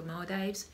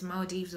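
First: "Maldives" ending like "dives"; own pronunciation. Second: "Maldives" ending like "deeves"; alternative pronunciation. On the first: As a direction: say "Maldives" to rhyme its second syllable with "fives". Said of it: "but I say Maldives". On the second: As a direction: say "Maldives" with a long ee in the second syllable. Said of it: "if that's the correct pronunciation". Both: Shown as a demonstration.

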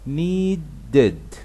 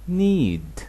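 First: Needed drawn out very slowly, nee-ded clearly split; slowed down. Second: Need drawn out very slowly; slowed down. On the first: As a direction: stretch needed syllable by syllable. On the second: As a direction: stretch need for the learners. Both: Shown as a demonstration. Teacher slowing a word so students can copy it. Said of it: "ببطئها عشان تعرف تنطقها".

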